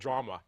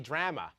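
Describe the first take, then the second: First: It is said in an American accent. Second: It is said in a Canadian accent. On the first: "instead of drama" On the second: "in Canada, we say drama"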